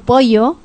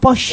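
First: The ll sounds like English y. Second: The ll sounds like English sh.

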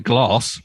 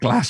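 First: It is said with a southern English accent. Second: It is said with a northern English accent. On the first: "I'd say glass ... because I'm from down south" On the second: "rather than a glass"

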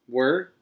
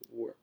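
First: The word is said at a louder volume. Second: The word is said at a quieter volume.

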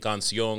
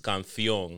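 First: The middle consonant is a plain s sound. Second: The middle consonant is a th sound. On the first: "instead of saying canción" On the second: "they add like a th to shit where there's an s"

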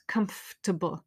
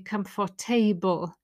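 First: The stress is on the first syllable. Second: The table ending is stressed and full. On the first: The speaker calls it right. "the stress is right at the start" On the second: The speaker calls it wrong. "A lot of my students say comfortable"

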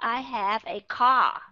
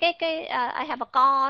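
First: The vowel in car is a back ah. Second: The vowel in car is a rounded o. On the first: The speaker calls it right. "Nó rõ ràng là âm O" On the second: The speaker calls it wrong. "cái co đó thì nó lại là sai"

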